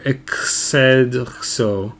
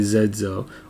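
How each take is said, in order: First: The name begins with an 'ex' sound. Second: The name begins with a 'z' sound. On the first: "Depending on how you pronounce your X" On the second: "Depending on how you pronounce your X"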